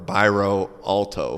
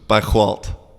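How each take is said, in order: First: It is said with English pronunciation, final O voiced. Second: It is said with Portuguese pronunciation, final O dropped. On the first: "if we were going to say it in English" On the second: "if you're gonna say it like a Portuguese"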